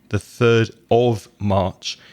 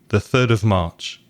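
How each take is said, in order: First: The word 'of' is said clearly and fully. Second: The word 'of' is reduced to a weak sound. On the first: The speaker calls it wrong. "So you don't hear the third of March" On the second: The speaker calls it right. "the of becomes very weak"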